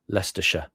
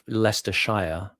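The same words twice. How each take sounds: First: The final 'shire' is weak and reduced. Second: The final 'shire' is said fully and clearly. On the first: "you deprecate the Shire bit" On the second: "It has to be emphatic"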